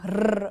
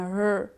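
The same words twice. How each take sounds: First: The r sound is strongly emphasized. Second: The r sound is light, without emphasis. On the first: The speaker calls it wrong. "they emphasize the R going rrr" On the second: The speaker calls it right. "rather than a rrr"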